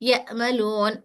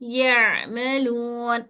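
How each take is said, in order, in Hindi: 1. दूसरा व्यंजन एक अचानक रुकने वाला हमज़ा है। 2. दूसरा व्यंजन मध्यम घोष के साथ सहजता से जारी रहता है।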